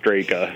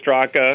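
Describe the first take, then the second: First: The surname is said the American way. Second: The surname is said the old-country way. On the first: This is how people in America usually say it. "Everybody in America says Straka" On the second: This is the traditional pronunciation from the family's origin. "The old country way is Straka"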